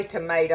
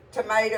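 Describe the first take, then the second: First: Said in the usual way. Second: "tomato" said as "tomater", with an r sound at the end; granny's r ending. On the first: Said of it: "well, I say tomato". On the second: Retold or imitated. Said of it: "she pronounced it with a R".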